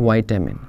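The word is said in the American variant. The speaker calls it right. "America में बोला जाता है विटामिन"

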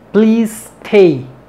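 The two words run together with one S. The speaker calls it right. "Se hace una sola S"

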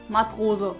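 The name is read as one German word. It means sailor.

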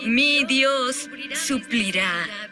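The stress falls on the word Dios. The promise is about who provides. "Eso lo hace sobre Él"

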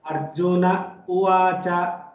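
There is a clear pause between the two words. It refers to one Arjuna speaking. The speaker calls it right. "We have to really pause there and tell Arjuna Uvacha"

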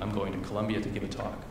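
The pitch falls at the end. It states a fact. "is a statement"

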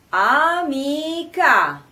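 It is said with the mouth wide open. The speaker calls it right. "aprendo bene la bocca"

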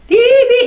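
It is said with the teeth apart, sounding open. The speaker calls it right. "이렇게 띄고서 해야지"

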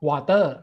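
It is said with a Thai accent. "ผมออกเสียงว่า"

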